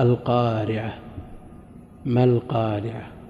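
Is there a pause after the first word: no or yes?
yes. There is a pause after the first word. The reciter stops at the end of the verse. "الوقف على هذه الآية حكمه، أنكم تسمعون كثير من القراء"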